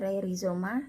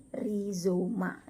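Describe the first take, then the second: First: Said in the usual way. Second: "rhizoma" very slowly, ri-zo-ma, plain r; RH read as R. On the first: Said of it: "bukan rei dibacanya". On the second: Shown as a demonstration. Teacher demonstrating the reading, "rhizoma" slow with a simple r. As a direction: stretch each syllable of "rhizoma". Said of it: "R H dibaca R".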